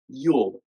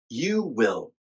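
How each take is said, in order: First: The words merge into one short syllable. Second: Both words are said fully and separately. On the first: "and then the contraction" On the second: "I'll say the full version first"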